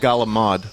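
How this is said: It is said in an Italian American New York accent.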